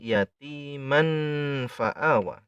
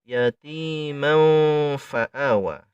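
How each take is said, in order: First: The n is pronounced clearly before fa. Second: The n becomes a nasal hum before fa. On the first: The speaker calls it wrong. "bukan yatiman fa'awa" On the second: The speaker calls it right. "bibir kita sudah bersiap-siap melafadzkan huruf fa saat mendengung"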